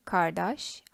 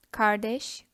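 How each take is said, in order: First: Kardeş said with a back a, kar-dash; kardeş with its last vowel opened to a, like kardaş; older back-vowel form. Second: Kardeş said with a front e, kar-desh; kardeş ending in an e vowel, as in standard Turkish; modern Turkish form. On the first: Teacher contrasting the old form kardeş, said kardaş. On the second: Teacher giving the modern Turkish form kardeş. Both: Shown as a demonstration. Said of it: "all Turkish sayings into parentheses".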